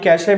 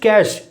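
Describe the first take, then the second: First: It has two syllables, ending in an 'ay' sound. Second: It has one syllable, sounding like 'cash'. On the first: The speaker calls it wrong. "Wrong है।" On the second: The speaker calls it right. "That is कैश। ये नकद वाला ही कैश pronunciation"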